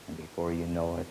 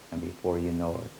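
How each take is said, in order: Both takes have the same delivery.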